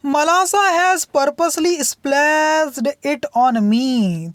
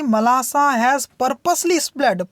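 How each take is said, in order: First: Put-on complaining child. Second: Said in the usual way. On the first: Girl complaining to her mother about Malasa, tattling. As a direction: tell on her sister, whiny and slow. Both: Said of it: "तो अकुल क्या कहती थी".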